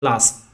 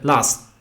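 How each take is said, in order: First: The final T becomes a glottal stop. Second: The same.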